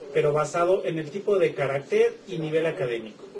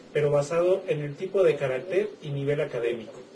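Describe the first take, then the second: Both takes have the same delivery.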